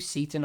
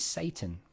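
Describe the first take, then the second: First: The name sounds like Seaton, with a long ee. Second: The name sounds exactly like the word Satan. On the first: "some people pronounce it Seaton" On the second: "his name is Satan"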